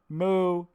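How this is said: The moo sounds odd, almost like a person. The cow might really be something else. "it didn't sound like a normal moo"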